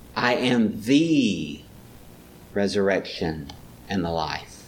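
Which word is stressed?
I. The stress is on the word I. He himself, in particular, is the resurrection. "Maybe he's pointing her to the particularness of it"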